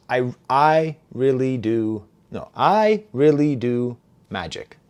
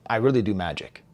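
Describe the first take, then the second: First: Slow, "I", "really", "do", "magic" each set apart; spaced-out demo of "I really do magic"; stopping between words. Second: Said in the usual way. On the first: Shown as a demonstration. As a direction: halt after every word of "I really do magic". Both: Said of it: "how he stops".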